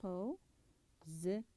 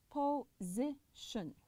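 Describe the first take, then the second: First: Position drawn out slowly, ending on a rise; slow model word. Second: Position said very slowly, po-si-tion with a pause after each part; split into syllables. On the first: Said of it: "فposition هنا فيها three syllables". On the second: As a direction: break position into three slow syllables. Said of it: "I stopped three times". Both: Shown as a demonstration.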